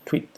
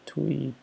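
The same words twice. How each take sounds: First: The vowel is said short and clipped. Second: The vowel is said long and drawn out. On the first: The speaker calls it wrong. "no tweet" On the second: The speaker calls it right. "pero tweet, un poquito alargado"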